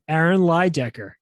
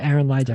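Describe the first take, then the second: First: It is said with lots of enthusiasm. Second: It is said calmly, without much enthusiasm.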